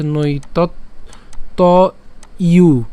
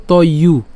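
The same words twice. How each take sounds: First: নৈতৎ, ত, ইউ with clear pauses between; broken into parts. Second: ত ইউ run together as one unit; joined up. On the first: Teacher breaking a word down, নৈতৎ - ত - ইউ apart. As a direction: separate নৈতৎ ত ইউ piece by piece. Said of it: "আমরা যদি এটাকে ভেঙে বলি". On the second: Teacher putting the pieces together, ত ইউ said joined. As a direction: glide straight from ত into ইউ. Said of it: "পুরোটাকে যদি একসাথে বলি". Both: Shown as a demonstration.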